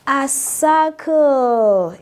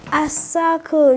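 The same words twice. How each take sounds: First: A circle, said slowly and drawn out, word by word; slow model word. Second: Said in the usual way. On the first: Shown as a demonstration. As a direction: spell out A circle slowly for the class. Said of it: "Draw with me".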